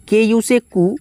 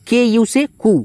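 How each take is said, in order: First: Said in the usual way. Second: के यू से कु, each letter drawn out; slow spelled syllable. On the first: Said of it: "तो के यू से कु". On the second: Shown as a demonstration. Teacher spelling Kumar for students, slow and careful. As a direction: slowly spell out के यू से कु.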